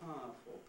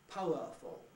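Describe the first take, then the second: First: The middle vowels are compressed into one diphthong. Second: The middle vowels are said as three separate sounds. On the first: The speaker calls it right. "We say powerful, ... compressing it by losing the u in the middle" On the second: The speaker calls it wrong. "We don't usually say powerful"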